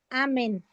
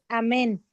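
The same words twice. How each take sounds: First: The stress is on the first syllable. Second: The stress is on the last syllable. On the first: This is the word's original form. "era amén" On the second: This is the form after the church changed it. "la iglesia le puso el acento y es amén"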